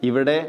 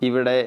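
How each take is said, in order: Both takes have the same delivery.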